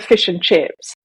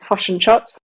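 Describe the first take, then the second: First: It is said in the speaker's usual accent. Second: It is said in a Kiwi accent.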